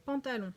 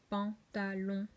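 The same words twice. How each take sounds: First: Said in the usual way. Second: Slow "pantalon" as pan, ta, lon; syllable by syllable. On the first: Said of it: "regardons d'abord le mot". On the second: Shown as a demonstration. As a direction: break "pantalon" into three even beats. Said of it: "Voilà, trois syllabes".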